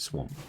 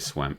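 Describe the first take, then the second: First: It is said with the usual spoken pronunciation. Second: It is said the way the spelling looks. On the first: "but we pronounce it swamp" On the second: "it does say swamp"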